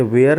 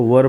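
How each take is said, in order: First: "were" misread to sound like "wear"; wrong pronunciation. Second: "वर" as one short syllable, "wur"; correct pronunciation. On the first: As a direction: say "were" as "वेयर". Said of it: "ये were नहीं पढ़ाएगा". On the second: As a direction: say "वर" for were, not "wear". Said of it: "इसको वर पढ़ेंगे". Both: Shown as a demonstration.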